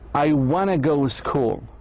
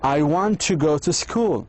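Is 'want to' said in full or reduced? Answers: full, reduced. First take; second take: reduced; full. First: Want to is reduced to wanna. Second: Want to is said as two full words. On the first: "Americans say, and British" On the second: "instead of saying want to"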